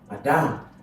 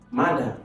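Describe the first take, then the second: First: The stress is on the second syllable. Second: The stress is on the first syllable. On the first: The speaker calls it wrong. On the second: The speaker calls it right. "this one has it"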